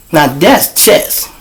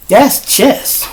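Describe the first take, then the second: First: "Now that's chess" drawn out slowly, each word leaned on; slow it down and let "Now that's chess" sink in; slow emphatic. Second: "That's chess" tossed up high and quick; punchline. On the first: Driving the point home to the viewers, slow and deliberate. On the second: Explaining a trick to the viewers, bright and high. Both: Shown as a demonstration.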